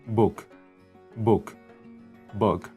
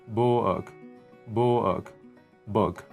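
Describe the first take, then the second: No difference in how they are said.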